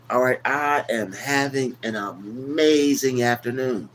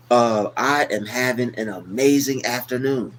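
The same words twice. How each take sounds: First: Slow, with amazing leaned on hard; stress on amazing. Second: Said in the usual way. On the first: Shown as a demonstration. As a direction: draw it out and hit "amazing" with weight. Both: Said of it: "when you put the emphasis on that".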